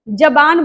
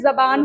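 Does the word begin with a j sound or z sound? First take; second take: j sound; z sound. First: The word begins with a j sound. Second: The word begins with a z sound. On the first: The speaker calls it wrong. "जबान बोल देते हैं ना" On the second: The speaker calls it right. "असल में जबान होता है। ज पर बिंदी।"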